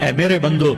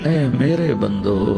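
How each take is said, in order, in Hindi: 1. यह सपाट और ठंडे लहजे में कहा गया है। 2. यह गर्म और प्यार भरे लहजे में कहा गया है।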